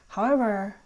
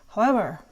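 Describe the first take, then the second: The two takes are said the same way.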